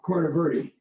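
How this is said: The name is said with an Americanized pronunciation. This is how locals commonly say it. "I call it Corner Verde, but that's Americanized"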